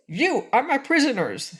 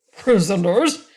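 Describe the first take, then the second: First: "you are my prisoners" said with "you" stressed high and a final fall; "you are my prisoners" as a flat, sure statement, falling at the end; stated firmly. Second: "Prisoners?" asked louder with a sharp rising tune; indignant question. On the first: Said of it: "in a squeaky voice". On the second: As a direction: throw "Prisoners?" back as an outraged rising question. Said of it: "asked the frogman angrily". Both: A narrator's reading.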